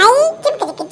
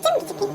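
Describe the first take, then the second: First: Chanted, sing-song gloat, higher; chanted, sing-song taunt; gleeful chant. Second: The chant repeated much softer, almost under the breath; quiet sing-song echo. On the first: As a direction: chant it to tease your sister. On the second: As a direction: let the taunt fade away to a murmur. Chant echoed softly. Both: Acted.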